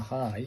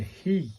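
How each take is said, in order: First: The vowel sounds like 'i' in 'high'. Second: The vowel sounds like 'ee' in 'he'. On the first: The speaker calls it wrong. "not a hi" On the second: The speaker calls it right. "Pronounced like the H E in he or she. So it's a he"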